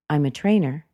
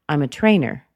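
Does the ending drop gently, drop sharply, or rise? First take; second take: drops gently; drops sharply. First: The pitch falls gently at the end. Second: The pitch drops sharply at the end. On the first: It is a normal, neutral answer. The speaker calls it right. "that's the normal intonation" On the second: It sounds strong and harsh. The speaker calls it wrong. "that's a little bit strong. That's a little bit harsh... not to drop too sharp"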